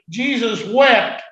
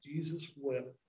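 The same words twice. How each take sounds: First: Slow, loud, drawn-out "Jesus wept."; solemn proclamation. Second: "Jesus wept." breathed almost silently, much softer; hushed repeat. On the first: Preacher reads the verse aloud, loud slow proclamation. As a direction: proclaim "Jesus wept." slowly and loudly, leaning on wept. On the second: Preacher repeats the verse to the congregation, hushed near-whisper. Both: Shown as a demonstration. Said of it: "it says".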